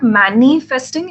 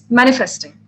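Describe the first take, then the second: First: A middle vowel is drawn out long. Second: The middle vowel is kept short. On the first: The speaker calls it wrong. "it's not manifesting" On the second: The speaker calls it right. "The I is supposed to be shorter"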